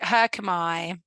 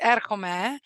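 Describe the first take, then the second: First: It is said with English-school classical pronunciation. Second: It is said with modern Greek pronunciation. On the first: "They would say" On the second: "I was pronouncing it in modern Greek"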